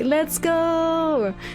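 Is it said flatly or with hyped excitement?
hyped excitement. It is said with hyped, streamer-like excitement.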